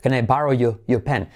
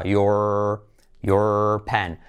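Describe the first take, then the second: First: "your" with the final R dropped, as in England; "your" said as a quick R-less "yo"; almost silent R. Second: "your" drawn out low with a held R; lower, teacherly "your" with a sounded R; generic English R. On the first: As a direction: let the R of "your" vanish into "pen". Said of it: "casi la R ni se dice". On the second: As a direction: hold the R at the end of "your". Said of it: "O más R genérica". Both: Shown as a demonstration.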